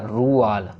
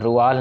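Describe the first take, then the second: First: The vowel after the r is drawn out. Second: The vowel after the r is short. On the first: The speaker calls it right. "र को खींचना है" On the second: The speaker calls it wrong. "रुआल नहीं"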